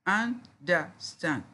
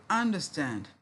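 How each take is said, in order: First: "understand" slowly as three separate beats; syllable by syllable. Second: Said in the usual way. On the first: Shown as a demonstration. Teacher answering how many syllables, syllable by syllable. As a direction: clear gaps between the three syllables of "understand". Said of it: "Three syllables". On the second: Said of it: "How many syllables we have there?".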